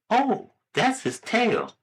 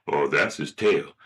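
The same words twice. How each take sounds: First: High, drawn-out mom voice; slow, high motherly answer. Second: Low, offhand dad voice; lower, matter-of-fact dad; father. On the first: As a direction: explain slowly as a mother, pitched up. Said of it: "the little boy asks his mother". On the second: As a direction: answer as a father, pitched down. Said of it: "Hey, Dad". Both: Acted.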